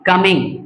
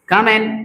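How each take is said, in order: First: The word ends with a g sound. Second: The word ends in n with no g. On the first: The speaker calls it wrong. "Not कमिंग" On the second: The speaker calls it right. "जी मत बोलो"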